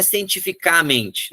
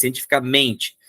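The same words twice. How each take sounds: First: "cientificamente" said as cien-ti-fi-CÁ-mente; wrong stress on CA. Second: "cientificamente" stressed cien-ti-fi-ca-MEN-te; correct stress on MEN. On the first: Teacher showing students an impossible form, "cientificamente" stressed on CA. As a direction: say "cientificamente" punching the CA. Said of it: "Não é cientificamente". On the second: Teacher giving the natural form after the wrong one, "cientificamente" stressed on MEN. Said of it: "não tem nem como falar isso". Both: Shown as a demonstration.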